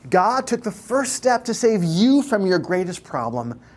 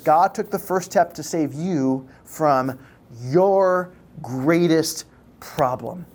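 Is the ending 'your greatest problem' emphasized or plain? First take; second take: plain; emphasized. First: The sentence is said without special emphasis at the end. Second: Emphasis falls on the words 'your greatest problem'. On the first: "I just want to say it again" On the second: "The first part I want to emphasize is the latter part"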